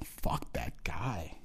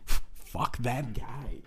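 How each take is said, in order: First: Soft, slow unvoiced whisper; whispered aside at the credits; mock whisper. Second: Chuckling it out, soft and slow; amused echo of the whispered curse; laughing repeat. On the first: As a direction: hiss it under your breath like a mourner. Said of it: "people go". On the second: Retold or imitated. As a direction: laugh through the line. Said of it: "repeats it laughing".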